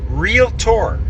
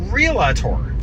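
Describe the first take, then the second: First: Realtor said as REEL-tor, two syllables; realtor, demonstrated correctly; correct pronunciation. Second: Realtor drawn out slowly as REE-luh-tor, three syllables; mocking the REE-luh-tor mispronunciation; wrong pronunciation. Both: Shown as a demonstration. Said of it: "not realtor".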